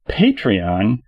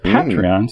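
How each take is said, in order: First: The first syllable sounds like 'pay'. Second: The first syllable sounds like 'pat'. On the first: It sounds like a demand for money. "sounds like the good fellas screw you, pay me" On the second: It sounds like friendly encouragement. "sounds like you're just giving it a nice pat on the back"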